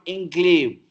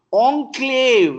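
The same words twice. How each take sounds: First: Enclave said with en; anglicized enclave. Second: Enclave starting like on, said high and loud; French-style enclave. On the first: Teacher showing the wrong enclave. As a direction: say enclave starting with en. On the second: Teacher giving the French-style Enclave. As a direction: open Enclave with on, not en. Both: Shown as a demonstration. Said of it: "not enclave".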